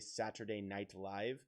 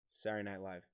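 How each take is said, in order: First: The middle consonants are all clearly pronounced. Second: The middle consonants are dropped and slurred together. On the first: "They don't say Saturday Night Live" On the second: "They don't pronounce the consonants in any of it except for the beginning and end. So they just go"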